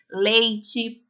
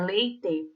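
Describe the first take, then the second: First: The final vowel sounds like an 'ee'. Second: The final vowel sounds like an 'eh'. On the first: The speaker calls it wrong. "A gente fala leite ... troca o E pelo I" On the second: The speaker calls it right. "O certo é leite"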